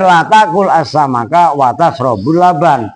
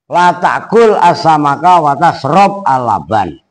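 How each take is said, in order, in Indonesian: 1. Kata kerja tashrab berakhiran vokal u. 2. Kata kerja tashrab tidak berakhiran vokal a maupun u. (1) "kadang-kadang dibaca rofa" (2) "kadang dibaca jazm"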